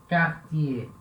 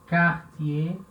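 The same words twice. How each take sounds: The two takes are said the same way.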